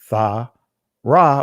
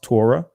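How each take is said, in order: First: It begins with a 'th' sound. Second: It begins with a plain 't' sound. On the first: This is the ancient Hebrew pronunciation. "the ancient Hebrew will be Tha Ra or Tha Wara" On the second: This is the modern Israeli pronunciation. "in the Israeli language, this will be pronounced Torah"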